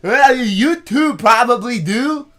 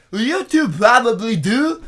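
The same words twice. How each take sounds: First: High, loud and slow put-on voice; imitating the guy. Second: High, loud put-on voice, a bit slow; imitating the guy. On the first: Retelling what the stranger said to his dad, high and slow. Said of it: "this is exactly how this guy sounded". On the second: Correcting the misheard line in the stranger's voice. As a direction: repeat his line pitched up and loud. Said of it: "he goes".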